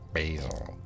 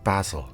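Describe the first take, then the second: First: It is said with an American pronunciation. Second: It is said with a British pronunciation. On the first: This is the form used in America. "instead of basil" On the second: This is the form used in Britain. "basil instead of basil"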